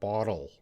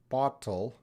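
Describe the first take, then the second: First: The middle consonant is a soft D sound. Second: The middle consonant is a clear T sound. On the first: "and with a D sound" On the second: "I'm trying to say it with a T sound"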